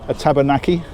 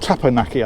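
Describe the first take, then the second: First: It is said like the word tabernacle. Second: It is said like the word teppanyaki. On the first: The speaker calls it wrong. "Somebody will tell me I pronounced that wrong" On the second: The speaker calls it right. "I think, rather than tabernacle"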